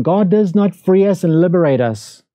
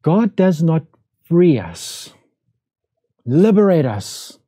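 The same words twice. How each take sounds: First: Said in the usual way. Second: Slow, spaced-out "God does not... free us... liberate us", each phrase set apart by long pauses; deliberate emphasis. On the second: Shown as a demonstration. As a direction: lean on "God" and let each verb land on its own.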